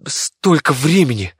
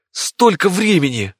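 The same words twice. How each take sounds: First: Slow, loud dismay; first cry at lost time. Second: Higher, slow, stronger despair; dismayed. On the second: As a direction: repeat it more desperately. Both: Acted. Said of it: "не мог подобрать ни ругательных слов".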